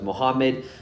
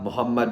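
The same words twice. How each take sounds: First: The name has an Americanized pronunciation. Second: The name has its original Pakistani pronunciation. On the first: The name has been changed by English speakers. The speaker calls it wrong. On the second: This is how the name is really said. The speaker calls it right.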